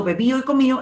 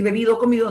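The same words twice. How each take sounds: First: BEBIDO and COMIDO ending in -ÍO; dropped D in -ido. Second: Said in the usual way. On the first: Shown as a demonstration. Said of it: "las terminaciones en ido". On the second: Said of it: "por decir bebido o comido".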